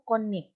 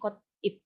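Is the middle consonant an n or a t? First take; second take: n; t. First: The middle consonant is an n sound. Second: The middle consonant is a t sound. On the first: The speaker calls it right. "Jadi pelafalan akhirnya it yaitu konip" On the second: The speaker calls it wrong. "bukan kotip"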